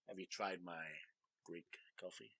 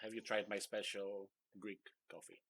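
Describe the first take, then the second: First: It is said in a put-on suggestive voice. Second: It is said in a normal voice.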